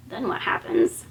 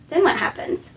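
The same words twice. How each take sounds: First: Whispered, thinking aloud; whispered to herself. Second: Said in the usual way. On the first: Real, not acted. Speaker whispers to herself while recalling the story. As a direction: hush it as she searches her memory.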